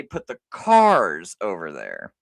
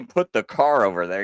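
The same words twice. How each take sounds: First: "cars" drawn out slow and low, landing hard on the plural; stress on cars. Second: "car" said with a questioning rise, as the odd-sounding form; mock the wrong "car" lightly; wrong singular. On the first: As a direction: lean on "cars" to show the right form. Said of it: "You say". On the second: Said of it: "you could sound kinda stupid". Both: Shown as a demonstration.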